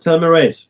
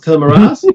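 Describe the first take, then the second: First: It is said the Australian way. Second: It is said the German way. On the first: "Dave is more than welcome to pronounce it telomerase" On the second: "I'm German, so I will pronounce telomerase"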